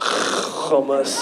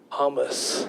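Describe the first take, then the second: First: It is said with an exaggerated fake-Arabic pronunciation. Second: It is said with a natural Arabic pronunciation. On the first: The speaker calls it wrong. "people try to pronounce food names the same way they think we pronounce them back home" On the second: The speaker calls it right. "this is how we pronounce it"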